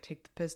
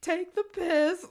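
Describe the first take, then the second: First: Said in the usual way. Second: High, loud, slow drawn "Take the piss"; mocking sister quote; shrill mock sister. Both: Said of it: "and she's like".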